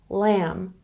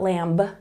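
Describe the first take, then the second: First: The final B is silent. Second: The final B is pronounced. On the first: The speaker calls it right. "when B comes after the letter M in a word, we don't say it" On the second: The speaker calls it wrong. "not lamb"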